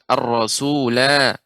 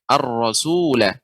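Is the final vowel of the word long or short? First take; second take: long; short. First: The final vowel is held long. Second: The final vowel is kept short. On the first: The reciter stops on this word. "Ketika kita waqaf pada kata ini, ar-rasula, maka dibaca dengan dua harakat" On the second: The reciter continues without stopping. "Ketika wasal pendek"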